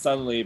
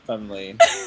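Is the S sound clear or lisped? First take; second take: clear; lisped. First: The S sound is said clearly. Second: The S sound is said with a lisp. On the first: This is how the name is really spelled. "My name is Sunlee" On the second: This is how the character actually says it. "but technically I say Sunlee"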